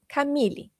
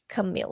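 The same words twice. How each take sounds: First: The name is said with a Portuguese pronunciation. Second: The name is said with an English pronunciation. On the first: This is how the name is said at home. "my name in Portuguese is" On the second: This is how English speakers know the name. "here in the United States, my name is Camille"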